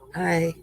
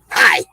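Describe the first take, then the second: First: It is said in a nice voice. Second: It is said in a rough voice.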